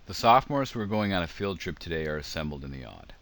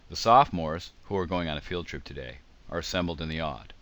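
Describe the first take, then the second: First: The middle clause runs on without surrounding pauses. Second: The middle clause is set off by pauses. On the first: "There's one reading" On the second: "you can hear the parenthetical"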